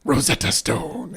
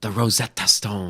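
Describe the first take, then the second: First: Slow, lofty "Rosetta Stone" while gazing off; imitating a dreamy proclamation; mocking grand pronouncement. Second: Rosetta Stone drawn out, grand; lofty slow declaration; slow grand pronouncement. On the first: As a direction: parody his grand delivery slowly. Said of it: "He's, like, looking off while he says it". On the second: Pretend. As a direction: land "The Rosetta Stone" like a revelation. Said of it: "He's doing a hand thing too".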